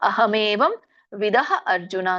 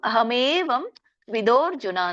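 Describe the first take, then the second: First: The last two words are said as separate words. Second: The last two words are run together as one. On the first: "ನೀವಿಲ್ಲಿ ಅಹ್ ಎರಡ್ ಪದ ಮಾಡ್ಬೋದು" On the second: "ಅಹಮೇವಂ ವಿದೋರ್ಜುನ ಅಂತ ಹೇಳ್ಬೋದು"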